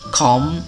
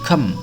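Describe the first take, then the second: First: The vowel is a full, clear o sound. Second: The vowel is a weak, reduced schwa sound. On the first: "com aslinya" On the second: "dilemahkan menjadi kem"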